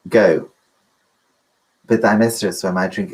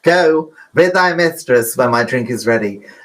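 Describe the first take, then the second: First: It is said in a plain, straight voice. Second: It is said in an exaggerated camp voice.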